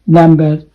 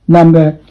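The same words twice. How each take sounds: Both takes have the same delivery.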